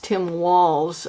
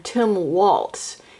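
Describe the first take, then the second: First: The surname does not sound like the dance word. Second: The surname sounds like the dance word waltz. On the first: The speaker calls it right. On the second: The speaker calls it wrong.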